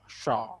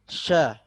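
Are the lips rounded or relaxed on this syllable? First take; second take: rounded; relaxed. First: The syllable is said with protruding, rounded lips. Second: The syllable is said with relaxed, unrounded lips. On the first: The speaker calls it wrong. "tidak dimonyongkan dan tidak ada suara sya ... ini salah, keliru" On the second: The speaker calls it right. "Jadi benar sya ... Mulut berada kondisi biasa saja"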